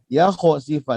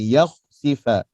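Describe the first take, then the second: First: The kh bounces with a short vowel after it. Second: The kh is closed with no vowel after it. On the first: The speaker calls it wrong. "Ada orang melantun di sini. ... Tak boleh" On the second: The speaker calls it right. "Kha tebal di sini"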